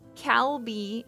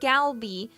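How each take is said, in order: First: The word starts with a hard K sound. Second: The word starts with a hard G sound. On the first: "written with a K ... people will read it Calby" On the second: "sometimes it's written with a G ... or Galby"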